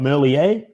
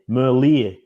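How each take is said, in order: First: The last syllable has a French ending. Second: The last syllable sounds like the word ear. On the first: The speaker calls it wrong. "He's not French. He's not Merlier" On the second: The speaker calls it right. "It's like the ear on the side of your head"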